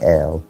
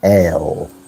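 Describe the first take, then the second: First: It is said softly, like an Arabic speaker. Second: It is said sternly, like a Western speaker.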